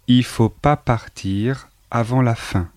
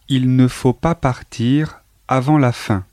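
First: The word ne is left out entirely. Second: The word ne is pronounced before faut. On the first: This is the casual spoken form. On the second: This is the standard form.

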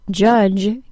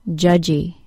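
First: The word ends cleanly on the J sound. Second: A vowel sound is added after the J sound. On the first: The speaker calls it right. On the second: The speaker calls it wrong.

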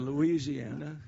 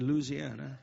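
First: It is said in the usual outsider way. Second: It is said in the local Louisiana way. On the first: The speaker calls it wrong. "Instead of Louisiana, see the difference?" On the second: The speaker calls it right. "Somebody taught me how to say Louisiana"

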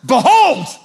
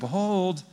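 First: It is said as a strong, commanding call. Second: It is said as a relaxed, offhand remark.

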